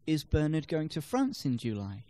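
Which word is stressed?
France. The stress falls on the word France. It questions where he is going. "No, he's going to Belgium"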